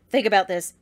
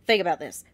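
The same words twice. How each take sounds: The two takes are said the same way.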